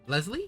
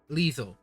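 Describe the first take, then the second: First: The first vowel is short, as in 'less'. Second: The first vowel is long, as in 'lee'. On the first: The speaker calls it wrong. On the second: The speaker calls it right.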